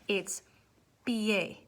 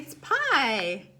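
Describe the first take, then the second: First: Pie is said as two syllables, pee-eh. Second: Pie is said as one English-style syllable. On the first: The speaker calls it right. "It's not pie. Nobody say pie" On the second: The speaker calls it wrong. "Everybody's gonna look at this word, P I E, and say"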